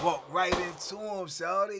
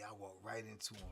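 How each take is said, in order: First: "Walk right into him" louder, stress on "right"; repeating it louder for the wonder of it; emphatic repeat. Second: Said in the usual way. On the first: Real, not acted. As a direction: hit "right" and push the line out louder.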